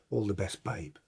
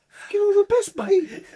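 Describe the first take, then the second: First: Low, soft voice; imitated send-off. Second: Very high, loud mocking squeal; incredulous mock repeat. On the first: Teammate wishing the substitute luck, low and quiet. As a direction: drop it low and quiet, as the other player. Opponent's send-off before kickoff, acted. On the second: Substitute mocking the send-off, squeaky and incredulous. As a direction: shoot it right up in outraged disbelief.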